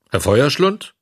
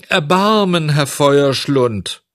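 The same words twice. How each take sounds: First: Gruffly questioned title, lightly acted. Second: High, loud cry for mercy; tearful pleading. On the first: Director rejecting how he was addressed, gruff. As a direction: throw the name back as a curt question. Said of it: "gab dieser barsch zurück". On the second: Puppet begging the director for mercy, tearfully pleading. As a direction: plead with a long drawn-out wail. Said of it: "weinte und flehte". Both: A narrator's reading.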